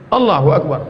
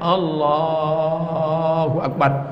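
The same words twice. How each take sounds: First: The phrase is said short and quick. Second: The phrase is drawn out long.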